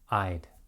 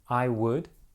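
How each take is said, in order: First: Would is reduced to a short d sound. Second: Would is said as a full separate word. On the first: "So would is reduced to the short d" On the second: "Two words"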